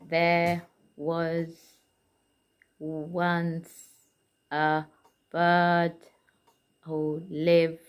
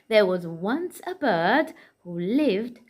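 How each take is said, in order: First: It is read flatly, word by word. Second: It is read in a lively, expressive way. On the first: The speaker calls it wrong. "in a decoding way" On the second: The speaker calls it right. "as a storyteller"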